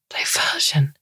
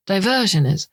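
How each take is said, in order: First: Scornful whispered question; derisive. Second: Said in the usual way. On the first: Acted. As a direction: sneer the word back at her. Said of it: "with all the derision she can muster".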